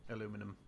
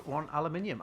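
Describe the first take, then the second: First: "aluminum" with stress on the second syllable, American style, said lower; "aluminum" as Americans say it, a-LOO-mi-num. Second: Said in the usual way. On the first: Shown as a demonstration. Reluctantly saying "aluminum" for the game, American style. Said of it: "said the American way of saying". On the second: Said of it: "as a British guy saying aluminum".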